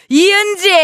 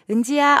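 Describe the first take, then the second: First: A sons' mom shouts the name sharply. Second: A daughters' mom calls the name softly.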